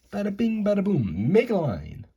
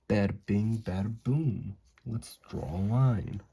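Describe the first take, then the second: First: Loud, high slogan shout-out; hyped-up catchphrase. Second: Said in the usual way. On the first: Pretend. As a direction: punch it out like a jokey T-shirt slogan. Replaying catchphrase for merchandise joke.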